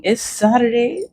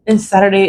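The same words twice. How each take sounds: First: Sing-song high Saturday; bright lilting lift on Saturday; chirpy sing-song announcement. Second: Said in the usual way. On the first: Real, not acted. Repeated greeting, sung-out high.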